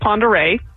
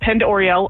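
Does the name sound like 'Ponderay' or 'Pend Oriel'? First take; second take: Ponderay; Pend Oriel. First: The name is said as 'pon-der-ay'. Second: The name is said as 'pend or-ee-el'. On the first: The speaker calls it right. "our county is Ponderay" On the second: The speaker calls it wrong. "That's the only one I've ever heard on the mispronunciation is Pend Oriel"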